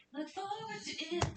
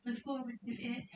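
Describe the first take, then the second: First: High lilting "Look forward to it" with a falling end; sing-song tease. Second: Said in the usual way. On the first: Shown as a demonstration. Streamer teasing fans about the collab, high sing-song.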